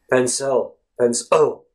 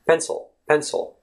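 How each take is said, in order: First: "pencil" as pen-SELL, with a full second vowel; overdone second vowel. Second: "pencil" flowing gently through a light schwa into the l; higher, easy "pencil", ending not cut off. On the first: Teacher showing the wrong way, "pencil" with stressed second syllable. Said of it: "obviously you don't say it like". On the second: Teacher showing how to let it flow, "pencil" eased out. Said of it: "let it flow a little bit more". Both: Shown as a demonstration.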